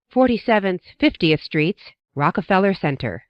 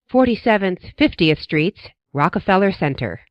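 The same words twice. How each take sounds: The two takes are said the same way.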